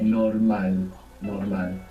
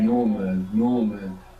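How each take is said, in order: First: The stress is on the last syllable. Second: The stress is on the first syllable.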